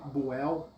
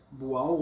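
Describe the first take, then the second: First: "Boel" with an open "e" in the last syllable; pronúncia com E. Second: "Boal" with an open "a" in the last syllable; pronúncia com A. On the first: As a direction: say "Boel", ending in "ell". ("Boel" pronunciado com E aberto, final "éu") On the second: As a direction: say "Boal", ending like "ow". ("Boal" pronunciado com A aberto, final "au") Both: Shown as a demonstration. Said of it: "se pronuncia Boal ou Be-, Boel".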